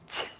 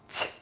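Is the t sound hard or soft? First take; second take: soft; soft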